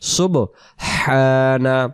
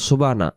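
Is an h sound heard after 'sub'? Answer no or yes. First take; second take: yes; no. First: It is said with a breathy h sound. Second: It is said without the h sound. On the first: The speaker calls it right. "সুবহানা উচ্চারণ হবে" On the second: The speaker calls it wrong. "এমন না"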